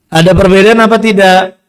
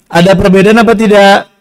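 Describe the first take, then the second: Both takes have the same delivery.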